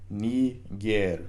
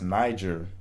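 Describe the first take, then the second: First: The first vowel sounds like 'ee'. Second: The first vowel sounds like 'eye'. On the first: The speaker calls it right. "the I in quote unquote Niger actually makes an E sound" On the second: The speaker calls it wrong. "today we would look at this word and pronounce it um, as"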